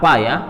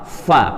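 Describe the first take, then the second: First: It starts with a p sound. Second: It starts with an f sound. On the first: The speaker calls it wrong. "bukan pa" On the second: The speaker calls it right. "Fa, fa"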